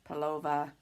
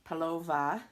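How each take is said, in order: Both takes have the same delivery.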